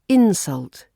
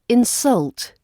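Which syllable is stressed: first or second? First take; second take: first; second. First: The stress is on the first syllable. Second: The stress is on the second syllable. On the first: It is used as a noun. "As a noun, it's insult" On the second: It is used as a verb. "As a verb, it's insult"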